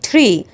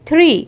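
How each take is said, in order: First: The t at the start sounds like a light sh. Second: The t at the start is a plain t. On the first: The speaker calls it right. "زي الشاء خفيفة كده" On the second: The speaker calls it wrong. "مش بننطقها tree"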